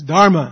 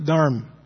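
First: The final short vowel is pronounced. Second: The final short vowel is dropped. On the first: The speaker calls it right. "you can't drop that last A. It's Dharma" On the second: The speaker calls it wrong. "It's not Dharm"

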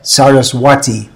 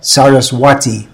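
First: The middle consonant is pronounced as a W. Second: The same.

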